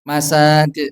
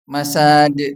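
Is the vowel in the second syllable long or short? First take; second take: long; long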